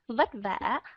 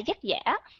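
First: It is said with a Northern Vietnamese v sound. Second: It is said with a Southern Vietnamese y-like sound.

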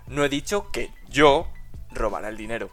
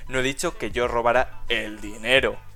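First: The stress is on the word yo. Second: The stress is on the word dinero.

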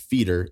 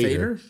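First: The first vowel is a long 'ee' sound. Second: The first vowel is an 'ay' sound. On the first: This is how one stranger said the name. The speaker calls it wrong. "This guy pronounces it feeder" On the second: This is how the name is really said. The speaker calls it right. "It's actually pronounced"

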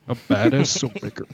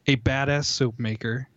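First: It is read in a deep movie-trailer narrator voice. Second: It is read in a plain, normal voice.

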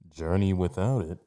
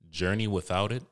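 First: It is said in a put-on villain voice. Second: It is said in the speaker's ordinary voice.

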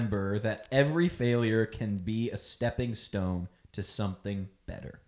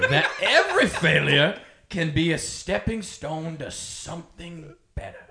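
First: It is read in a plain, neutral accent. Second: It is read in an exaggerated Southern accent.

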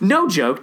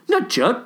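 First: It is said in a plain normal voice. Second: It is said in a put-on Michelle voice.

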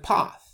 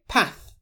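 First: The word is said in an RP accent. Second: The word is said in a non-RP accent. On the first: "instead of path" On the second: "I say path"

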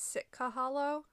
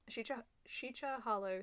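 First: The name begins with an s sound. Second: The name begins with a sh sound. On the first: This is the locally heard pronunciation. "I always heard it as Sitka Hollow" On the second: This is the officially given pronunciation. "S-H-E-C-H-A is like how you're supposed To pronounce it"

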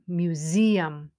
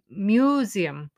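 First: The stress is on the second syllable. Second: The stress is on the first syllable. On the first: The speaker calls it right. "the stress is on the zeum" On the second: The speaker calls it wrong. "in some languages they say museum"

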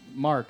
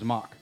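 First: The R sound in the name is pronounced. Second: The R sound in the name is dropped. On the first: "my brother, Mark" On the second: "I never said an R. ... it was Mock"

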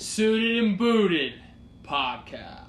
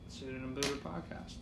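First: It is said with energy and gusto. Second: It is said flatly, without energy.

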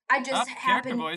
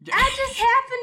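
First: It is said in the speaker's natural voice. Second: It is said in a put-on character voice.

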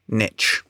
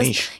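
First: It is said in an American accent. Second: It is said in a non-American accent.

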